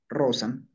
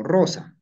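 First: "Rosa" closed on m, as Rosam; "Rosa" plus a final m, no i; suffix I dropped. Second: Said in the usual way. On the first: Shown as a demonstration. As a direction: end "Rosa" with lips shut on m. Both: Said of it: "pero escribo Rosami".

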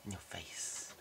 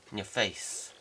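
First: Unvoiced, hushed whispered gloat; whispered taunt. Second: Said in the usual way. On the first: Shown as a demonstration. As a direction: player gloating over beaten foe, whispered taunt.

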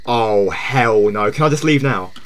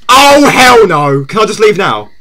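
First: Low, soft, reluctant murmur; subdued dread. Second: Drawn-out loud "hell no", then easing down; loud dismay. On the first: Streamer wanting out of scary game, subdued dread. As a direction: say it low and under your voice. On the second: Streamer wanting out of scary game, loud dismay. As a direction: wail the first words slowly, then plead. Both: Real, not acted.

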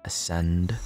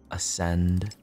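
No difference in how they are said.

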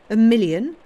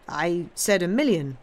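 First: Much louder and higher, mocking disbelief; incredulous scoff. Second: Plainly pleased with himself, leaning on million; smug self-satisfaction. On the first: Count mocks the banker's million with loud disbelief. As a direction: throw the word million back in scorn. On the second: Banker repeats the sum to the Count, smugly. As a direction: savour the word million smugly. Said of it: "with idiotic self-satisfaction". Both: A narrator's reading.

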